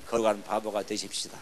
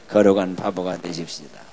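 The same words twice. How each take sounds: First: Said in the usual way. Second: Low, loud, measured lead; loud group prompt. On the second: Shown as a demonstration. Preacher leads congregation greeting each other after the cue, loud. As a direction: lead everyone firmly in saying it.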